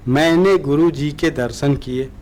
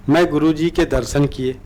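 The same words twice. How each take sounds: First: मैंने stressed, whole sentence slower; slow down and lean on मैंने to show the fix. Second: Said in the usual way. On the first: Shown as a demonstration. Teacher correcting a grammar example, slowly stressing मैंने. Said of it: "मैंने गुरुजी के दर्शन किए होगा". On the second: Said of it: "ठीक है".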